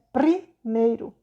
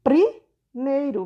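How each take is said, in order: First: "Primeiro" said very slowly, syllable by syllable; slow sounding out. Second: "Primeiro" stretched very slowly, every syllable apart; slow sounding out. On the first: Teacher repeats "Primeiro" slowly to show the answer. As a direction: drag out "Primeiro" so pupils hear each sound. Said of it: "tá vendo". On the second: Teacher stretches out "Primeiro" slowly for pupils. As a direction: draw "Primeiro" out slowly so the P and R are heard. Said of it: "vai ser o quê". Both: Shown as a demonstration.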